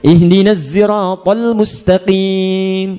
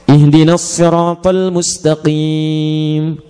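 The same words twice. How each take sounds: First: Sirat begins with a voiced z sound. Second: Sirat begins with an emphatic, heavy s sound. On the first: "Di kunbul dari Ibnu Katsir pakai zai" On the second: "Kalau pakai sad"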